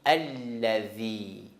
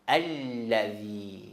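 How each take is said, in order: No difference in how they are said.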